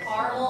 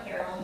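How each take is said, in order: First: Caramel as two syllables, CAR-mel; regional pronunciation. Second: Caramel as three syllables, CARE-uh-mel; regional pronunciation. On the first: Host showing regional variants, caramel said CAR-mel. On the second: Host showing regional variants, caramel said CARE-uh-mel. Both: Shown as a demonstration. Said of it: "depending on where you're from".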